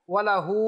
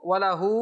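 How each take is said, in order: The two takes are said the same way.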